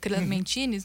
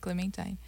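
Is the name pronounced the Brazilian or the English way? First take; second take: Brazilian; English. First: The name is pronounced with Brazilian Portuguese sounds. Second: The name is pronounced with English sounds. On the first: "uma pronúncia abrasileirada, que seria Clementines" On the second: "a pronúncia em inglês seria Clementine"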